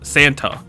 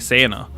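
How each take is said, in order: First: The T sound in the middle is clearly pronounced. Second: The T sound in the middle is dropped. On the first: "I don't say the T in Sant" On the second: "I say Santa"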